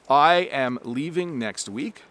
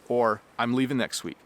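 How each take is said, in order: First: It is said in full, with each sound clear. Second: It is contracted, with the final g dropped.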